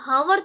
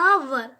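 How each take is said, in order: First: The word begins with an h sound. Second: The word begins directly with a vowel. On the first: The speaker calls it wrong. "अब इसको हावर तो पढ़ेंगे नहीं" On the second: The speaker calls it right. "एच क्या है यहाँ पर silent है"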